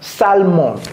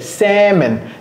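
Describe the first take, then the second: First: The L sound is pronounced in the word. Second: The L sound is dropped from the word. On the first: The speaker calls it wrong. "A lot of fr francophone people pronounce this salmon" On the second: The speaker calls it right. "on a fait sauter le L"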